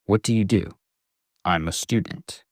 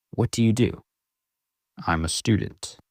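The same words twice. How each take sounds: The two takes are said the same way.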